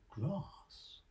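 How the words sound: The vowel is long, as in farm.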